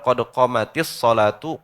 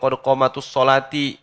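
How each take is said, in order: First: The last word ends with a u vowel. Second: The last word ends with an i vowel. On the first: The speaker calls it right. "Jadi yang benar" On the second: The speaker calls it wrong. "Salah tuh"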